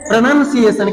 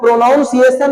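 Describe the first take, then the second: First: The second syllable sounds like the word nun. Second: The second syllable sounds like the word noun. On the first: The speaker calls it right. "तो इसे हम लोग क्या पढ़ते हैं?" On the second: The speaker calls it wrong. "प्रोनाउंसिएशन नहीं पढ़ते हैं"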